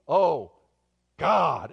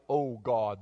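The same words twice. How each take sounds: First: Loud, split 'Oh... God' appeal; desperate prayer cry. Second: Said in the usual way. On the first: Shown as a demonstration. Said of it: "Not the "Oh, God," the". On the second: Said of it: "Not the".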